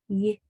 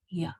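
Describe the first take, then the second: First: A short y sound made with spread lips. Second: A y sound with jaw dropped into 'ah'. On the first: The speaker calls it right. "You want to kind of smile when you make the consonant sound for Y" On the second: The speaker calls it wrong. "and not your jaw dropped like ya"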